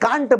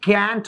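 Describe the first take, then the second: First: It is said with a British accent. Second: It is said with an American accent.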